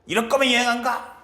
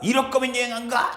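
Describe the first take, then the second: First: Higher, mock-cross grandma repeating her threat; lightly voiced huffy grandmother again insisting; hammed-up grandma sulk; angry grandma. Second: Higher, mock-cross grandma refusing the trip; a lightly voiced huffy grandmother; hammed-up grandma sulk; angry grandma. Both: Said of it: "할머니가".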